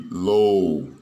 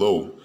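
First: The vowel is lengthened. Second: The vowel is short. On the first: The speaker calls it right. "we are going to lengthen this vowel" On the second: The speaker calls it wrong. "instead of it being low"

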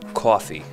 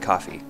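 First: Coffee is said in a New York accent. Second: Coffee is said in the speaker's plain accent.

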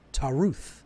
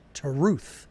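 Both takes have the same delivery.

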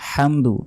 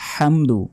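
The two takes are said the same way.

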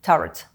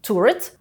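First: It is said with a British English pronunciation. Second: It is said with an American English pronunciation. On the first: "а британці кажуть turret" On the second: "В американській англійській кажуть turret"

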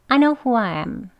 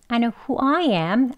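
First: Nothing is stressed and every word is weak. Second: The opening is weak, who I am is stressed. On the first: "강조하지 않고요 … 쭉 이어서 다 weak 발음으로" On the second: "앞에를 weak 발음으로 … I는 강조하고요"

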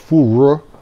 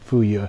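First: The word is pronounced in Mandarin. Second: The word is pronounced in Cantonese. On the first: "In Beijing, I think it's more fu ru" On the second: "I was pronouncing it in Cantonese, which is my grandmother's Cantonese, so she always said fu ye"

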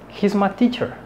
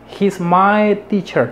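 First: The word my is reduced toward ma. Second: The word my is said fully and clearly. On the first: The speaker calls it right. "No es que digan ma, pero tampoco dicen my" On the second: The speaker calls it wrong. "ellos no pierden tiempo en hacer my"

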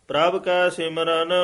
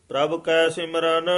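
Both takes have the same delivery.

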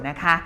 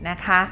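No difference in how they are said.

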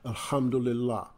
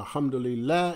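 First: The H is plain and lazy, like 'ham'. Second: The H is breathy with air pushed out. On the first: The speaker calls it wrong. "as opposed to" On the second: The speaker calls it right. "say Alhamdulillah ... a little air come out with that H"

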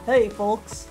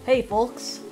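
First: It is said in a deep, low voice. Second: It is said in a slightly higher voice.

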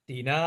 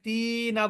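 First: The vowel is said short and quick. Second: The vowel is drawn out long. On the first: The speaker calls it right. "দেখেন এখানে কত দ্রুত চলে গেলাম" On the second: The speaker calls it wrong. "আমি তো এখানে তিনা বলতে পারতাম, কিন্তু কেন বললাম না"

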